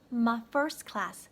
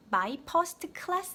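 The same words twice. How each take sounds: First: MY FIRST CLASS with MY reduced to ma; natural pronunciation. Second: MY FIRST CLASS as ma-i peo-seu-teu keul-lae-seu; wrong pronunciation. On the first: Teacher correcting learners, natural my first class. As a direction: link FIRST CLASS without added vowels. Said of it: "요렇게만 들리시죠". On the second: Teacher showing the mistake, Koreanized my first class. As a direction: give FIRST and CLASS added Korean vowels. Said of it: "my first class 아니고". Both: Shown as a demonstration.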